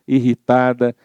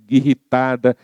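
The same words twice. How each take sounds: The two takes are said the same way.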